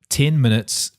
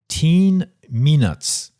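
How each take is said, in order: First: The vowel in ten is short and plain. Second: The vowel in ten is drawn out long.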